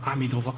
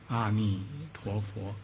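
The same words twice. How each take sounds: First: The phrase is recited quickly. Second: The phrase is recited slowly. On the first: The reciter feels energetic and excited. "快点吧" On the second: It is late and others should not be disturbed. "念慢点"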